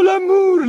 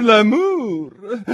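First: "l'amour" sung high and loud, falling away; swooning l'amour. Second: "l'amour" drawn out high, lilting upward; rising l'amour. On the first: Duchess sighs "l'amour" high, falling. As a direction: let "l'amour" sigh downward. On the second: Duchess repeats "l'amour", lilting up. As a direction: let "l'amour" lift like a question of delight. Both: A narrator's reading.

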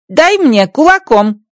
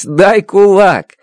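First: High, slow alien voice; Rocky asking for a fist bump his own way; Rocky's garbled phrase. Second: Дай кулак! said slow and emphatic; laughing correction of the alien's phrase. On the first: Acted. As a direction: proudly get the phrase wrong. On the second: Shown as a demonstration. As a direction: spell out Дай кулак! as a teacher. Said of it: "Надо говорить".

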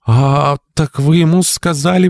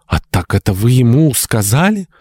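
First: Very high, slow, indignant outburst; sudden revolt, pitched high throughout; rebellious exclamation. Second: High rising question, taken aback; shocked, pitch climbing to the end; gasped realisation. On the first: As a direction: draw out the opening, then challenge. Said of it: "воскликнула Мария, внезапно взбунтовавшись". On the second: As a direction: gasp it as the truth sinks in. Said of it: "ахнула Мария". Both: A narrator's reading.

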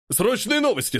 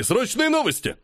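First: High, breathless urgent call; urgent announcement. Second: Even higher, frantic second call; more urgent call. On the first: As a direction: burst in shouting news. Man bursts in with news. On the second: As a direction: push harder on the repeat. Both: Acted.

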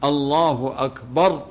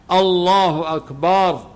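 First: الله أكبر with a short, crisp glottal stop on الله and no lengthening; الله أكبر with a clipped opening hamza, the correct way; clean cut hamza. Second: الله أكبر slow, with the opening hamza of الله lengthened; الله أكبر with a stretched, questioning first vowel; wrong drawn-out takbir. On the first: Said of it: "يجب أن القطع". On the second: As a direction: drag out the start of الله like a question. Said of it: "هذا يصبح استفهام". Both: Shown as a demonstration.

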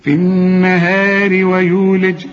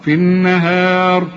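First: Slow chanted النهار ويولج, joined with thin "ri"; light linked r. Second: Slow chanted النهار, stopping on a thick r; heavy final r. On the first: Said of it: "عند الوصل مكسورة". (ترقيق راء النهار عند الوصل) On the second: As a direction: recite النهار with light h, heavy closing r. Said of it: "أفخمها". (تفخيم راء النهار عند الوقف) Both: Shown as a demonstration.

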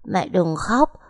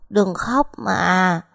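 First: Put-on little boy begging through tears; mild childlike sob; child whimpering. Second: Slow, drawn-out tearful plea; a little boy sobbing to his mother; little son crying, words dragged out; child crying. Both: A narrator's reading. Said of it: "mếu máo khóc".

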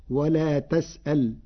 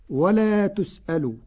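First: "ولا تسأل" as "wa lā tas'al", fatha on ت, silent-ended ل; Warsh vowelling. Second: Said in the usual way. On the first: Shown as a demonstration. Teacher showing Warsh's prohibition reading, "ولا تسأل" said tas'al. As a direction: open the ت and stop dead on the ل in "ولا تسأل". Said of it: "بفتح التاء وجزم اللام". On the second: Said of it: "قرأ ورش كلمة".

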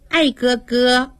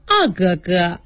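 First: 爱哥哥 drawn out slowly, mocking the lisp of 二哥哥. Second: Said in the usual way. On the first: Daiyu mocks Xiangyun's lisp, slow teasing 爱哥哥. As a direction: imitate a lisper saying 爱哥哥. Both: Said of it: "偏是咬舌子".

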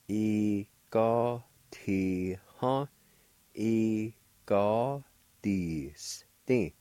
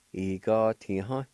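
First: E ga ti ha said very slowly, each syllable drawn out; slow demo. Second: Said in the usual way. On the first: Shown as a demonstration. Teacher slowing the word down for beginners. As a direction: stretch E ga ti ha for learners. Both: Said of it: "pronounced like this".

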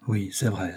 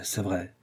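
First: Said in the usual way. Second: "c'est vrai" dropped much softer, giving in; soft defeated echo of "c'est vrai"; quieter, resigned repeat. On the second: A narrator's reading. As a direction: let the second "c'est vrai" fall away softly.

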